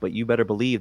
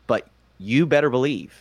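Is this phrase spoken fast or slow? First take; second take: fast; slow. First: The phrase is spoken at a fast pace. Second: The phrase is spoken at a slower pace. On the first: "I'll say it fast" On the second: "I'll say it slower"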